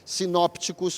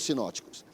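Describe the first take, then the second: First: A p sound is heard before the t. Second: No p sound is heard before the t. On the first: "é possível pronunciar assim, sinópticos ou sinóticos" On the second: "é possível pronunciar assim, sinópticos ou sinóticos"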